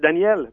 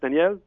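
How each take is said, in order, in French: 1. Le prénom est dit plus fort. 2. Le prénom est dit à volume normal.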